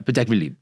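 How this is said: It is said very quickly in one smooth run. The speaker calls it right. "it sounds like it's very quick"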